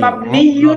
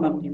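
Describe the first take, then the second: First: The word ends with an added -yun syllable. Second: The word ends without the -yun syllable. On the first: "মূল উচ্চারণ" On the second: "যখন স্বাভাবিক উচ্চারণ করব বলবো"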